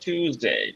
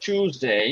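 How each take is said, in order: First: It starts with a plain 't' sound, American style. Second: It starts with a 'ch' sound, British style. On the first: "আর আমেরিকানরা টিউসডে" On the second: "ব্রিটিশরা বলে চুজডে"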